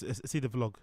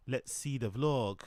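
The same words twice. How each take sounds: First: Said in the usual way. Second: Slow, drawn-out "Let's see the vlog", leaning on "vlog"; slow emphatic repeat. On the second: Shown as a demonstration. Streamer repeating himself to start the video, slow and deliberate. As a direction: stretch "vlog" out slowly with a falling end.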